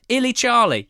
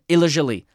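First: The name is said like English words 'Illy Charlie'. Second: The name is said in its original-sounding form. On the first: The speaker calls it wrong. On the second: The speaker calls it right.

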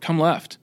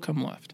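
First: It is said hard and forcefully. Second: It is said gently and softly.

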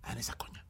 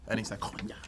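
First: It is said at normal volume. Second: It is said louder.

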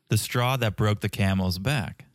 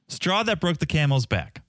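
First: It is said slowly and deliberately. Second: It is said at normal conversational speed.

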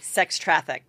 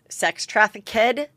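First: The -ed ending adds no extra syllable. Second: The -ed ending is said as an extra syllable. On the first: The speaker calls it right. "instead of like" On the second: The speaker calls it wrong. "I give it like an extra"

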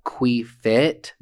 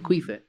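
First: The word is said slowly and separately. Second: The word is said fast and run together. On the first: "this one says" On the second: "if you say it fast"

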